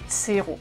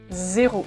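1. Das Wort beginnt mit einem ts-Laut. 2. Das Wort beginnt mit einem summenden z-Laut. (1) "nicht Zero" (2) "das Z am Anfang wird Z ausgesprochen"

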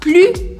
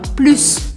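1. O S final é silencioso. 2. O S final é pronunciado. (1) "e aí você fala plus" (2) "a pessoa te corrige e fala plus"

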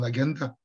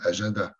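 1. Il se prononce avec des sons latins. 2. Il se prononce avec des sons français. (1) "Je ne vais pas dire" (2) "je vais employer"

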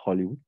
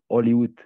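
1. Le H initial est prononcé. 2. Le H initial est muet. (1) "pas Hollywood" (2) "toujours Hollywood ... parce que le H est muet"

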